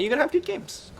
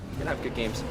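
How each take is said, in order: First: High sing-song. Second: Said in the usual way. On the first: Shown as a demonstration. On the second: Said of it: "and you're gonna have good games".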